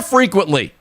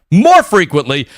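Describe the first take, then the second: First: Said in the usual way. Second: More said louder as a correction; stress on More. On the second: Shown as a demonstration. Host correcting himself to viewers, louder on More. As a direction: repeat it and punch More.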